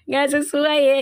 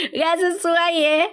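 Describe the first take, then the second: First: Said in the usual way. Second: Slow amused repeat, a bit higher. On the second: Real, not acted. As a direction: savor the joke as you repeat it. (diulang sambil geli)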